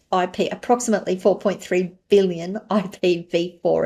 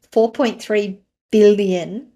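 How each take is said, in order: First: Said in the usual way. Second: "four point three billion" slow, each word louder and weighted; underscored number. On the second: Real, not acted. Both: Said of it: "and I'm underscoring that".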